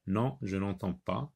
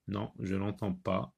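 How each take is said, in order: Both takes have the same delivery.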